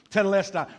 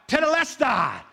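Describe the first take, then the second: First: Said in the usual way. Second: Tetelestai cried out high and loud. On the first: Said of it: "Have you ever heard this word". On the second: Retold or imitated. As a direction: call Tetelestai out from the cross. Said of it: "he cried out".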